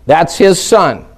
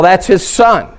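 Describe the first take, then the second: First: "his" weighted, said slowly; slow down and lean on "his"; stress on his. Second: Said in the usual way. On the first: Shown as a demonstration.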